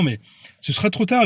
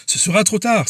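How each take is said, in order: First: Said in the usual way. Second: Tard hit higher as a solemn warning; ce sera trop tard stressed, with a falling end on tard; emphatic warning. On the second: Shown as a demonstration. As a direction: repeat it to drive the warning home.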